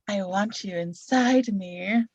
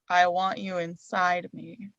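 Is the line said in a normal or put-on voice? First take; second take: put-on; normal. First: It is said in a put-on, different voice. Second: It is said in the speaker's normal voice.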